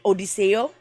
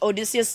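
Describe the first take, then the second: First: The name ends with an "-eo" sound. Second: The name ends with an "-eus" sound.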